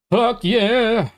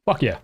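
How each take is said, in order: First: Excited cheer. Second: Said in the usual way. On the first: Real, not acted. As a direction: let it burst out with joy. Same words said twice.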